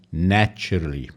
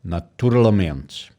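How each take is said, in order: First: Naturally, weight on NAT; stress on first syllable. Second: Naturalmente, weight later in the word; stress not on first syllable. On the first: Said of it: "the focus on the syllable is on the first". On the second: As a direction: keep naturalmente's stress off the start. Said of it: "is not in the beginning like in English". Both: Shown as a demonstration.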